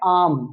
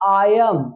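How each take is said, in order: First: It is said as one contracted syllable. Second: It is said as two full words.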